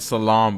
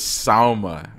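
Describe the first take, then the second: First: The name ends with the sounds "lam". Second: The name ends with the sounds "ma". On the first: The speaker calls it wrong. "I don't know why I keep calling it Salam" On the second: The speaker calls it right. "but it's Salma"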